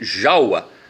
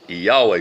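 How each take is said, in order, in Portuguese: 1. O nome começa com som de J. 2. O nome começa com som de Y. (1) "Está escrito Jaua" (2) "O nome é Iaua"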